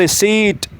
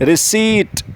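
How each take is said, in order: No difference in how they are said.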